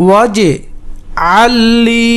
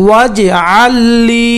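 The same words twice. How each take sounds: First: "ওয়াজআল লি" split by a pause after was; broken-up pronunciation demo. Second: "ওয়াজআল লি" chanted in one piece, long final vowel; chanted, intone "ওয়াজআল লি" without a break; connected chanted demo. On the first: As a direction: chant "was", pause, then long "আল লি". ("ওয়াজআল লি" ভেঙে ভেঙে উচ্চারণ) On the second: (chanted, "ওয়াজআল লি" একটানা সুর করে) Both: Shown as a demonstration. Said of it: "উচ্চারণ করে পড়বেন".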